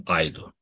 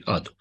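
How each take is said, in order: First: Wrong reading aido, a and i both sounded; wrong diphthong aido. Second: Right way ado. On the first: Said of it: "Nu pronunțăm aido". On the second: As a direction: correct reading ado, only the a sounded. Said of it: "Nu pronunțăm aido, ci ado". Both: Shown as a demonstration.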